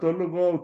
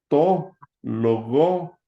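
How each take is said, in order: First: The two words are run together quickly. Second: The two words are said separately, one by one.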